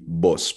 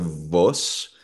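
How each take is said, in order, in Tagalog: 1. Nagsisimula ang salita sa tunog na b. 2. Nagsisimula ang salita sa tunog na v. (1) "kundi boss. Parang B yung tunog" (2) "yung V sound, hindi siya vos"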